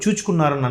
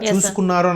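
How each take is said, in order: First: The middle consonant is a 'ch' sound. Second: The middle consonant is an 's' sound. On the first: This is how a famous actor said it, his style. "చూచుకున్నారని అంటారు" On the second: The actor could not say it this way. "చూసుకున్నారు అని అనడం రాక"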